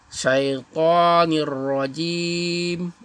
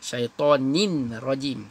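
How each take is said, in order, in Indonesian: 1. Bunyi n menyatu ke bunyi r setelahnya. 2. Bunyi n diucapkan jelas sebelum r. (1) "Ni dengan ra jadi nir" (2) "dia baca hentam je. ... Tak boleh ya"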